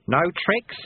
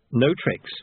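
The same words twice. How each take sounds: First: NO TRICKS high with a rising end; raised, questioning "no tricks"; questioning sweeper. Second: Falling, matter-of-fact "no tricks"; agreeing apprentice. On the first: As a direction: ask "no tricks" as a check. Sweeper asks for agreement. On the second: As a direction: confirm "no tricks" as a settled promise. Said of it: "said Lobsang". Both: A narrator's reading.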